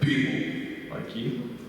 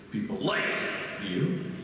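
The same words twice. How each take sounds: First: The word "people" carries the stress. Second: The word "like" carries the stress.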